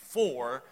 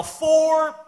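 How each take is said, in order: First: Said in the usual way. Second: Loud, high shout of Four; a full-voiced warning shout on the golf course; golf yell. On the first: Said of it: "instead of saying". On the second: Shown as a demonstration. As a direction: bellow it across the course. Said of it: "I yell".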